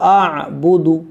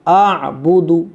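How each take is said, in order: The two takes are said the same way.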